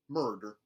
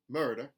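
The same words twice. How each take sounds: First: The R sound is hard and strong. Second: The R sound is lightly pronounced. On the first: "mountain, where the R sounds are retained, but they are hardened" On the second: "a contemporary Southern, where those R colorations are put back in"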